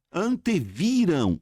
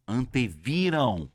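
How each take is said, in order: First: Anteviram said slowly, ending on a plain open a with no ão; drawn-out Anteviram clipped to a bare final a; wrong ending. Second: Anteviram said slowly, ending in a clear nasal ão; drawn-out Anteviram landing on a full ão; corrected ending. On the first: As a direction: Anteviram with the nasal ão dropped. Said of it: "Opa, isso aqui é em ão". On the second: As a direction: Anteviram finishing on a nasal diphthong ão. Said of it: "isso aqui é em ão". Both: Shown as a demonstration.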